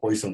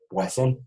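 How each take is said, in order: First: The name is pronounced the English way. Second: The name is pronounced the French way. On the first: The speaker calls it wrong. "como se acostumbra a decir en inglés" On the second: The speaker calls it right. "como se pronunciaría en francés"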